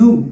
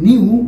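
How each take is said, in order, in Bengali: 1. n-এর পরে কোনো y-গ্লাইড নেই। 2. n-এর পরে একটি y-গ্লাইড আছে। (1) "বাট এটার উচ্চারণটা হবে নু" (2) "আমার মনে হয় বেশিরভাগ মানুষই বলবে নিউ, কারণ স্কুলে এটা এভাবে শেখানো হয়"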